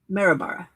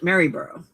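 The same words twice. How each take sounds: First: The name is said with an Australian pronunciation. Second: The name is said with an American pronunciation. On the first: "But in Australia, it's" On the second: "we would pronounce it"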